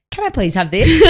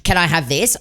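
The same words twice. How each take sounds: First: High little-kid request, imitated; child asking politely. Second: Said in the usual way. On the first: Son retrying after mum's silence, high imitated child voice. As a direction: ask high, as a corrected child. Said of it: "you just hear Bailey go". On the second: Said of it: "if Bailey says".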